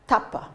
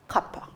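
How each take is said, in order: First: The word begins with a T sound. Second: The word begins with a K sound. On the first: This is the Kauai form of the word. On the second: This is the form used on the other islands.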